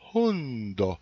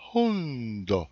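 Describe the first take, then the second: Both takes have the same delivery.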